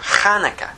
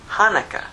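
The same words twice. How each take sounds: First: It starts with a rough, throaty sound. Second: It starts with a plain, soft h sound.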